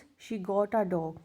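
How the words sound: The voice falls at the end, as a statement.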